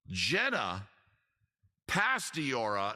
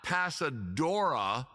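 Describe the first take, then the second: First: The surname's middle sounds like 'stee'. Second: The surname's middle sounds like 'sa'. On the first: The speaker calls it right. "the oft mispronounced name" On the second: The speaker calls it wrong. "not Pasadora, like an idiot said years"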